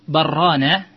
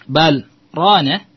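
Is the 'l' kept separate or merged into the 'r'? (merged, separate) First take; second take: merged; separate. First: The l merges into a doubled r. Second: The l stays separate before rana. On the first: It suggests two lands. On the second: Something has darkened the hearts.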